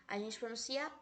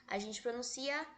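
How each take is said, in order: The two takes are said the same way.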